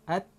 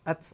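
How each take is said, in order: First: The final t stops with only a slight breath. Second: The final t is released with a strong hiss. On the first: The speaker calls it right. "ta mati dia hanya bunyi hamsnya sedikit saja" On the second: The speaker calls it wrong. "Dia tidak akan jadi ats ats ats. Ah, itu salah"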